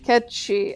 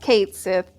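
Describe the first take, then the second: First: The name sounds like 'Ketchi', one word. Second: The name sounds like 'Kate Sith', two words. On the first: This is how the original Japanese version says it. The speaker calls it right. "The actual thing is pronounced Ketchi" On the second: This is how the English release and American fans say it. The speaker calls it wrong. "it's pronounced Kate Sith in Final Fantasy seven"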